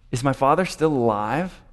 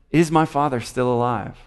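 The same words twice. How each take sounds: First: Said in the usual way. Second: "my" stressed, falling at the end. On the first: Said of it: "Joseph said to his brothers". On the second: Acted. Joseph reveals himself to his brothers, stress on "my". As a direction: lean on "my" as the revealing word. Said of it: "it's his father".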